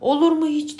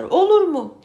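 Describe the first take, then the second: First: Loud protesting shout; crowd shout. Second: Higher, louder protesting cry; louder crowd shout. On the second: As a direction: yell it even harder than the crowd. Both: Acted. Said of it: "Bağırmışlar, çağırmışlar".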